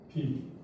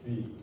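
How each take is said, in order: First: The syllable begins with a b sound. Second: The syllable begins with a w sound. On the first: This is the Sanskrit pronunciation. "비로다가 발음한다" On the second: This is the Pali pronunciation. "위로다가 발음을 한다고"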